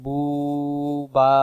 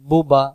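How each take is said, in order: First: The first vowel is drawn out long. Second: The first vowel is short. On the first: The speaker calls it wrong. "যখন আমি টান দিয়ে ফেলবো" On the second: The speaker calls it right. "উচ্চারণ হবে বুবা।"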